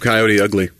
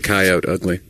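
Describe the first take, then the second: First: Coyote ends with a sounded final e. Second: Coyote ends without a sounded final e. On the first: The speaker calls it right. "because of Coyote Ugly" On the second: The speaker calls it wrong. "They don't say coyote ugly"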